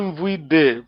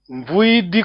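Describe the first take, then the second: First: The word ends with an 'eh' vowel. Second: The word ends with an 'ee' vowel. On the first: The speaker calls it wrong. "não é mvuide" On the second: The speaker calls it right. "o é I no fim"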